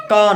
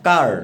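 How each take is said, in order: First: কা ending on an open vowel, no R; car cut back to its vowel; R dropped. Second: কার with the final R sounded; car said with its R kept; R pronounced. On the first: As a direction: say কা with the final R silent. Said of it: "আমরা এটাকে বলবো". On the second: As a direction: finish কার on a clear R. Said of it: "কা না, কার". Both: Shown as a demonstration.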